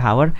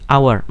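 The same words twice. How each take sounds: First: The word starts with a clear h sound. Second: The word starts without an h sound. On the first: The speaker calls it wrong. "dia nggak pernah dibaca hour" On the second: The speaker calls it right. "dibacanya sebagai hour"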